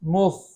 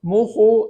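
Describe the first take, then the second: First: The word ends cleanly on the kh consonant. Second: A short u vowel is added after kh. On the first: The speaker calls it right. "इस तरह पढ़ेंगे मुख़" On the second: The speaker calls it wrong. "इस तरीके से नहीं पढ़ेंगे"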